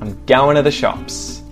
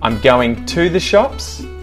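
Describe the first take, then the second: First: Going to is reduced to goin'a. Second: Going to is said fully and separately.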